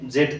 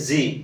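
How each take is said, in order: First: The letter name ends with a d sound. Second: The letter name ends with an ee sound. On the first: The speaker calls it wrong. "ଜେଟ୍ ତ ନୁହଁ" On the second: The speaker calls it right. "ଇଟ୍ is ଜି"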